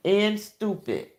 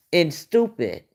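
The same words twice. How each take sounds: First: A softer, dry echo of the insult; deadpan quiet repeat. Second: Said in the usual way. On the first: Real, not acted. Repeating the insult about her fans, softer. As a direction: drop the volume and let it sink in.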